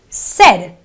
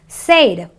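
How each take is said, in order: First: The vowel sounds like 'eh'. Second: The vowel sounds like 'ay'. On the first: The speaker calls it right. "it is a eh sound. So it is a said, an eh sound" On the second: The speaker calls it wrong. "non uh, English speakers sometimes pronounce this word as said. It's not an A sound"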